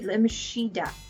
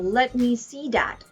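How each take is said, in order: First: See begins with an sh sound. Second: See begins with a clear s sound. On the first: "They would say" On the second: "for example"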